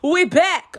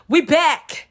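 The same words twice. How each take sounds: First: Higher, louder, rising hype shout; over-the-top hype. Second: High, loud hype catchphrase; hype shout. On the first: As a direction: push the catchphrase too far. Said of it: "Okay, I think that's too much". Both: Acted.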